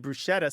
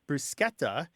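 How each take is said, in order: First: The middle consonant is a sh sound. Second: The middle consonant is a hard k sound. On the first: This follows an English or Yiddish sch pattern. The speaker calls it wrong. "so it conforms to, say, the S C H in schlepp or schmuck" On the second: This is the Italian pronunciation. The speaker calls it right. "this word bruschetta"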